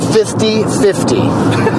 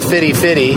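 First: The middle f sound in fifty is clear. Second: The middle f sound in fifty is dropped. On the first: The speaker calls it right. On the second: The speaker calls it wrong.

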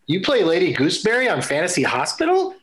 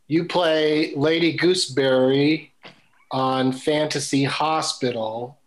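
First: It is said as a question, rising. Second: It is said as a statement, falling.

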